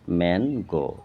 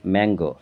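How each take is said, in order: First: ম্যানগো parted as ম্যান, গো; split in two syllables. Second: Said in the usual way. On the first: Shown as a demonstration. Teacher showing two syllables, ম্যানগো as ম্যান-গো. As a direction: break ম্যানগো after ম্যান. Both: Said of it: "দুবার উচ্চারণ হচ্ছে".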